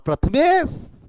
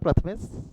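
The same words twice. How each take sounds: First: The name is called somewhat louder. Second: The name is called at normal volume.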